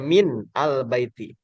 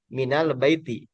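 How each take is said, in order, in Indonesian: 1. Kata-kata itu diucapkan sebagai bagian yang terpisah. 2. Kata-kata itu menyatu dengan vokal penghubung. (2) "cara bacanya"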